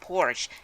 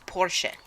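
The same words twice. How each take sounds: First: It is said in an anglicized English way. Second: It is said the way the original language does. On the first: The speaker calls it wrong. "it's not Porsche" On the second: The speaker calls it right. "it's Porsche. Yeah, that's right"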